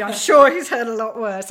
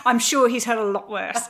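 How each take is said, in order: First: Louder repeat. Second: Said in the usual way. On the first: Real, not acted.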